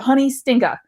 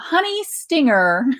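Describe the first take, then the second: First: It is said in a New Jersey accent. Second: It is said in a careful General American accent.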